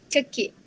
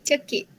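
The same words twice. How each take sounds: Both takes have the same delivery.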